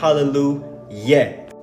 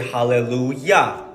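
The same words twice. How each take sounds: First: The final syllable ends with an 'eh' vowel. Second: The final syllable ends with an 'ah' vowel. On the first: The speaker calls it wrong. "not hallelujah" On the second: The speaker calls it right. "we say hallelujah"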